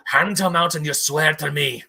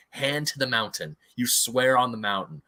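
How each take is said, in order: First: Put-on loud, forceful dwarven accent; imitated Durin, accent laid on firmly; dwarf's put-on accent. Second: Said in the usual way. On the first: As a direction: demand an oath in a dwarf's accent. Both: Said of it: "Sorry, I'm gonna do an accent".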